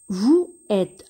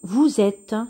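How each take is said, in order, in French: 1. Les deux mots se disent sans z de liaison. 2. Les deux mots sont reliés par un son z. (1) "on ne va pas prononcer de cette façon" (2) "le S va se prononcer ZE"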